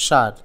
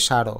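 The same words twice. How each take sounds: First: সার ending on a bare r, "shar"; no vowel after the r in সার; one syllable in সার, shar; with hasanta. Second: সার with a final vowel, "sharo"; two syllables in সার, sha-ro; without hasanta. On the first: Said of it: "হসন্ত দিতে হবে". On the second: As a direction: add an o after the r in সার. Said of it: "তা না হলে উচ্চারণ হয়ে যাবে". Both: Shown as a demonstration.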